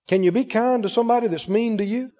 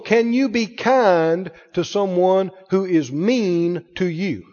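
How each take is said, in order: First: It is said at normal speed. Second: It is said very slowly.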